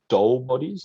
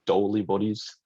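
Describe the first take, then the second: First: The name is said as one syllable, 'dole'. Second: The name is said as two syllables, 'doh-lee'.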